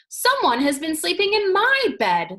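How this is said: It is said in a middle-sized voice.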